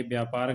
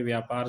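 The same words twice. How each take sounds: First: व्यापार said with a b sound, byaapaar; व्यापार starting with b instead of v; the common wrong व्यापार; wrong pronunciation. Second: व्यापार said with a v sound, vyaapaar; the correct व्यापार; correct pronunciation. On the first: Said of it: "गलत है". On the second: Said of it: "सही है". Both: Shown as a demonstration.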